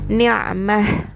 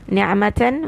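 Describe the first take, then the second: First: The word ends with a silent h sound. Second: The word ends with a full -atan syllable. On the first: The reader is pausing on the word. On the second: The reader continues without pausing.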